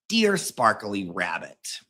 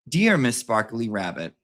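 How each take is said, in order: First: It is read in a put-on Nan voice. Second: It is read in a normal voice.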